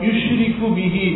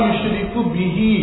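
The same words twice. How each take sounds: No difference in how they are said.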